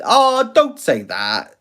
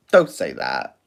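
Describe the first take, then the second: First: "don't" drawn out high and slow; high playful plea. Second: "Don't" dropped low and flat; low flat repeat. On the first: Pleading with a viewer, high slow plea. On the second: Answering the viewer again, low flat repeat. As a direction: repeat "don't say that" much lower. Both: Shown as a demonstration.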